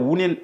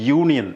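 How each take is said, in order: First: The word begins with a plain oo vowel. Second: The word begins with a y sound. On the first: The speaker calls it wrong. "നമ്മൾ ഒരിക്കലും അതിനെ ഊണിയൻ എന്ന് പറയാറില്ല" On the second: The speaker calls it right. "പറയുന്നത് യൂണിയൻ എന്നാണ്"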